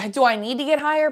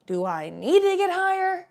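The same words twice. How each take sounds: First: Higher, sitcom-style rhetorical question; raised pitch with a touch of sitcom delivery; Chandler from Friends. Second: Exaggerated sitcom wisecrack, slow and high; hammed-up sitcom character question; Chandler from Friends. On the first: Real, not acted. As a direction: lightly slip into a sitcom wisecracker's cadence. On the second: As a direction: stretch it out, pitch climbing high on the end. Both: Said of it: "like I was Chandler from Friends".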